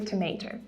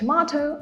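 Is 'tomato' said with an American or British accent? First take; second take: American; British. First: It is said with an American accent. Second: It is said with a British accent. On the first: "американці" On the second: "Британці говорять"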